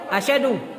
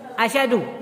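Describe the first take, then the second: Both takes have the same delivery.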